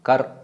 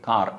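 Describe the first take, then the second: First: The vowel is short. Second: The vowel is long. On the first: This is the original Sanskrit form. "കർ എന്നുള്ളത് മാറ്റിയിട്ട്" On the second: This is the form used in Gurmukhi. "അവരുടെ ദീർഘം കൂടിയിട്ട് കാർ എന്നാക്കി"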